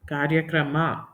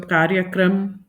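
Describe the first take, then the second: First: The word ends with a full final a vowel. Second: The word ends on a consonant, vowel cut short. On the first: This is the Kannada form. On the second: This is the Hindi form.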